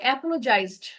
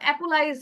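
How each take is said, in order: First: The middle 'j' syllable is clearly pronounced. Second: The middle 'j' syllable is dropped. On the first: The speaker calls it right. "উচ্চারণটা হচ্ছে অ্যাপোলোজাইজড" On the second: The speaker calls it wrong. "ভুল করেছেন। অ্যাপোলা অ্যাপোলাইজ এরকম উচ্চারণ করছেন।"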